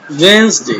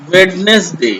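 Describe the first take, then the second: First: वेडनेसडे pronounced wens-day; silent d. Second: वेडनेसडे read as written, d sounded; as spelled. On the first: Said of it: "डी को silent करना है". (वेडनेसडे को 'वेंसडे' बोलें, डी silent) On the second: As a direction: say वेडनेसडे in three parts, wed-nes-day. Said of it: "ये लिखा हुआ है". (वेडनेसडे लिखे अनुसार, 'डी' के साथ) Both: Shown as a demonstration.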